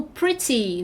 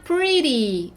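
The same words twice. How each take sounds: First: "pretty" with a true t sound; fully sounded t in "pretty"; crisp t. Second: American tapped t in "pretty". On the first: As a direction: say "pretty" as PRI-tee. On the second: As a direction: say "pretty" as PRI-ree. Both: Shown as a demonstration. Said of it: "pretty ou pretty".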